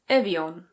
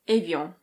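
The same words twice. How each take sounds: First: It is said with a British accent. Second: It is said with a French pronunciation. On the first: "In British English, it's Evian" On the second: "In French, this is pronounced Evian"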